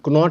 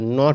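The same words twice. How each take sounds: First: The K at the start is pronounced. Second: The K at the start is silent. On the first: The speaker calls it wrong. "कोई नॉट बोल देता है जो गलत है" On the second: The speaker calls it right. "नॉट बोलना है"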